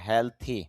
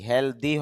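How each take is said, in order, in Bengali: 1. মাঝের ব্যঞ্জনটি একটি অঘোষ t-এর মতো শব্দ। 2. মাঝের ব্যঞ্জনটি একটি ঘোষ d-এর মতো শব্দ। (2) "হেলদি হবে না"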